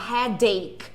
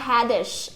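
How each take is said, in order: First: The 'ache' part starts with a k sound. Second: The 'ache' part starts with a ch sound. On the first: The speaker calls it right. "Não" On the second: The speaker calls it wrong. "uma vez eu li assim, ó"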